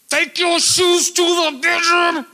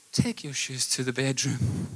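First: Loud, high, drawn-out yell; parent shouting. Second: Soft parent voice. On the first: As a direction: holler it at the kids. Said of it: "I'm gonna speak louder at you, like my kids". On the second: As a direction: tell the kids softly, without raising your voice. Demo contrasted with the shouted take. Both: Shown as a demonstration.

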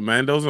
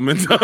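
First: Mendoza with "man" as first syllable. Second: Mendoza with "men" as first syllable. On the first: Friend about to text and find out, "MAN-doza" for Mendoza. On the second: Friend about to text and find out, "MEN-doza" in Mendoza. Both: Shown as a demonstration. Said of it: "M E N or M A N".

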